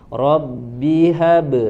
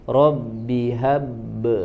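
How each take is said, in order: First: The final b bounces out immediately. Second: The final b is pressed and held before bouncing. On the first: The letter has no doubling mark. "Langsung memantul karena tidak ada tasydid" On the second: The letter carries a doubling mark. "kalau ada tasydid jadi Rabbi hab"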